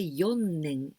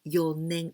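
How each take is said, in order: First: The middle n sound is doubled. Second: The middle n sound is single. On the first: The speaker calls it wrong. "we don't say よねん" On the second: The speaker calls it right. "So without any sound"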